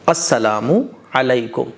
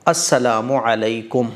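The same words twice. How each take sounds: First: Every syllable of the greeting is pronounced fully. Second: The same.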